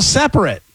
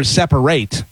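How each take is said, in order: First: "separate" ending in a short, unstressed "-rit"; adjective pronunciation. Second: "separate" ending in a full "-rate"; verb pronunciation. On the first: Quizmaster gives the word to spell, "separate" as SEP-rit. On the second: Quizmaster offers the other reading, "separate" as SEP-uh-rate. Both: Shown as a demonstration. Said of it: "however you wanna say it".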